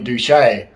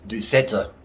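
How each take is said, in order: First: The middle consonant is a 'sh' sound. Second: The middle consonant is an 's' sound. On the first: The speaker calls it wrong. "I've been calling you Douchet. ... I thought there was a H in there" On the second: The speaker calls it right. "Your name is Doucetta"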